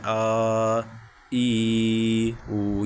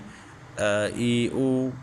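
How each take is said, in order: First: The vowels are stretched out long. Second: The vowels are short and even, unforced. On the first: The speaker calls it wrong. "इनको खींचते भी नहीं हैं, जैसे" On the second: The speaker calls it right. "इसको नॉर्मल हालत में पढ़ें"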